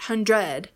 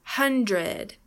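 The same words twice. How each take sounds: First: HunDRED, weight on the end; hundred wrongly stressed on its second syllable. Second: HUNdred, second syllable weak and falling; hundred stressed on its first syllable. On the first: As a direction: punch DRED in hundred. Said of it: "not hundred". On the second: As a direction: punch HUN in hundred. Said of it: "Stress is on the first syllable". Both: Shown as a demonstration.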